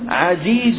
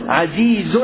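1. تنتهي الكلمة بدون صوت نون زائد. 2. تنتهي الكلمة بصوت نون زائد. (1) "كلمة عزيز وردت هاهنا بلا تنوين" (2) "الأصل أن يأتي منونا"

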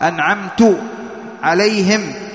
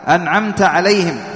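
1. تنتهي الكلمة الأولى بـ 'tu'. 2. تنتهي الكلمة الأولى بـ 'ta'.

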